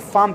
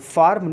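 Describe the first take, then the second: First: The R sound after the vowel is silent. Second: The R sound after the vowel is pronounced. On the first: The speaker calls it right. "आर को नहीं बुलाया जाएगा, फार्म कहा जाएगा" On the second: The speaker calls it wrong. "फार्म ना बोल करके"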